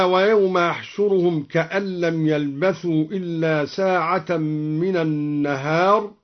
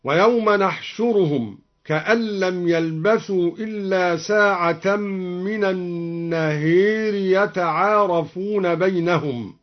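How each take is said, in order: First: Said in the usual way. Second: نحشرهم begun with n, النهير with a long e; nun and imala. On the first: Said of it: "بنون العظمة وأمال النهار". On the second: Shown as a demonstration. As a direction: recite نحشرهم with n and tilt النهير to "an-naheeri". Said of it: "وأمال النهار هكذا".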